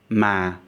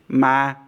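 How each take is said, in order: First: The pitch falls over the syllable. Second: The pitch stays flat and level throughout. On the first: It means butt. "As a falling tone" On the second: It means ghost. "As a flat board tone"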